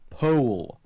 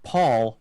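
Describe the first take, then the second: First: The vowel sounds like oh in bowl. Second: The vowel sounds like aw in straw. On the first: The speaker calls it right. "As in O. As in bowl" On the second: The speaker calls it wrong. "No, not Paul"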